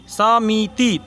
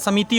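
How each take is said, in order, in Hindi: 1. शब्द धीरे बोला गया है, अक्षर अलग-अलग खिंचे हुए। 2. शब्द जल्दी बोला गया है, अक्षर आपस में मिले हुए। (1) "अगर ऐसी बोलिएगा समिति समिति तब इधर इधर से हो जाएगा, लेकिन ऐसे बोला नहीं जाता" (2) "समिति होता है तेजी में"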